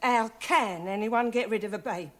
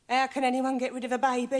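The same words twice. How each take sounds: First: The word can is stressed. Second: The word can is not stressed.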